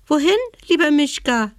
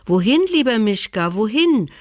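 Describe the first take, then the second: First: Much higher, fast, squeaky little mouse voice; piping dormouse. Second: Friendly animals. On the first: Dormouse to the bear, a high piping question. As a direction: peep it like a tiny dormouse. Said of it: "piepste die Haselmaus". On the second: Animals to the bear, a higher, friendly call. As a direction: call the bear kindly as the forest folk. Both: Acted.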